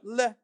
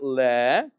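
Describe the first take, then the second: First: The vowel is clipped short. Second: The vowel is drawn out long. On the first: The speaker calls it right. "but le" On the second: The speaker calls it wrong. "It's not le"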